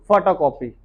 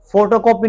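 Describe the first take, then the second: First: फोटोकॉपी said cleanly, slightly lower; teacher models the proper फोटोकॉपी; right photocopy. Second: फोटोकॉपी said the wrong way, stress pushed up; teacher shows how फोटोकॉपी is usually botched; wrong photocopy. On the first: Teacher correcting students, careful correct फोटोकॉपी. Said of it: "it's photocopy". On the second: Teacher warning students, wrong फोटोकॉपी, slightly louder. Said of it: "फोटोकॉपी नहीं". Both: Shown as a demonstration.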